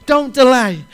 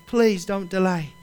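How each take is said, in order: First: Don't delay, called out loud and high; raised preaching voice, Don't delay ringing out; loud urgent plea. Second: Gentle plea. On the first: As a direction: shout the warning Don't delay. Preacher voices Jesus urging Zacchaeus. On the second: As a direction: ease off and beg Please don't delay kindly. Preacher pleads softly after the shout. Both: Acted.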